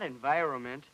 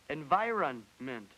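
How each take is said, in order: First: The middle n sound is left out. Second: The middle n sound is clearly pronounced. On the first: The speaker calls it wrong. "You left out an N. Not environment" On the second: The speaker calls it right. "The word is environment"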